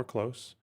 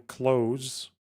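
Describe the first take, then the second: First: "close" ending in a hissed s, like near; "close" as the adjective, with an s. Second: "close" ending in a buzzing z, like shutting a door; "close" as the verb, with a z. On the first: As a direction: say "close" with a sharp s at the end. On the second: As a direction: say "close" with a voiced z at the end. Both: Shown as a demonstration. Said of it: "or close".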